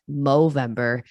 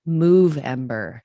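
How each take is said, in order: First: The first part sounds like 'mo'. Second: The first part sounds like 'move'. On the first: It refers to growing a mustache. The speaker calls it wrong. "it's not Movember" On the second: It refers to movement and exercise. The speaker calls it right. "it's Movember"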